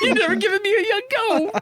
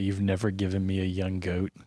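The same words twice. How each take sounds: First: It is said in a Luke Skywalker voice. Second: It is said in the speaker's normal voice.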